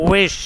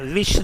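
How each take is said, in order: First: It starts with a rounded W sound. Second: It starts with a V sound. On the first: The speaker calls it right. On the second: The speaker calls it wrong.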